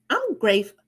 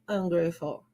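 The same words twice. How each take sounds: First: It is said with a wide smile. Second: It is said flatly, without a smile. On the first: The speaker calls it right. "Automatically, you are smiling" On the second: The speaker calls it wrong. "I don't say"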